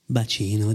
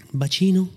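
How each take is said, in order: First: Lightly voiced Nikos. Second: A touch higher, teasing question; lady's playful goodbye. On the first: Nikos answers the lady, lightly lower voice. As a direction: give the pet name back, low and gentle. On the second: Lady teases her lover at parting, lightly higher. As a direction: tease him lightly with the pet name. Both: A narrator's reading. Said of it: "disse Nikos".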